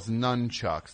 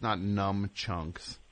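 First: The word is said as nun-chucks. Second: The word is said as num-chunks. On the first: The speaker calls it right. "it's nunchucks, not numchunks" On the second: The speaker calls it wrong.

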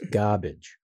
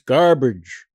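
First: The R in the first syllable is dropped. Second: The R in the first syllable is pronounced. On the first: The speaker calls it right. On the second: The speaker calls it wrong.

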